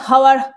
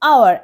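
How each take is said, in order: First: The word begins with an h sound. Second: The word begins with a vowel sound. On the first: The speaker calls it wrong. "আমরা হাওয়ার বলি কখনো না" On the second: The speaker calls it right. "আমরা বলি আওয়ার"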